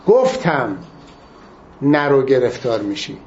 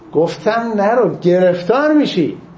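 First: The stress falls on the word گفتم. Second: The stress falls on the word گرفتار. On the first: It stresses that the warning was given. "تأکید روی گفتم" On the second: It stresses the trouble that would follow. "تأکیدش به گرفتاره"

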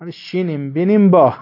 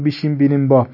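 First: The phrase begins with an 'sh' sound. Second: The phrase begins with a 'b' sound. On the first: The speaker calls it right. "تلفظ صحیحش این است که" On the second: The speaker calls it wrong. "بعضی اشتباه میگن"

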